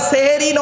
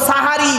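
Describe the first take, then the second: First: The first syllable has an 'e' vowel. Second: The first syllable has an 'a' vowel. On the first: The speaker calls it wrong. "শব্দটা সেহেরি নয়" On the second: The speaker calls it right. "দন্তেশ্বয় একার নয়, দন্তেশ্বয় আকার"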